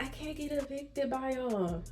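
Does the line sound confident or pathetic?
pathetic. It is said in a weak, pathetic way.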